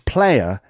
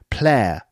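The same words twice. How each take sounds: First: The vowel is a full three-part glide. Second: The vowel is flattened into one sound.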